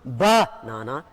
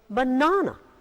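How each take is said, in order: First: The stress is on the first syllable. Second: The stress is on the second syllable. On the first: The speaker calls it wrong. "It's not banana" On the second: The speaker calls it right. "The stress is on na"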